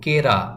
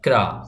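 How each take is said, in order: First: A vowel separates the k and r. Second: The k and r are joined with no vowel. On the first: The speaker calls it wrong. "যদি আপনি এভাবে বলেন কেরা, হবে না।" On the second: The speaker calls it right. "উচ্চারণ করতে হবে এভাবে, দেখুন"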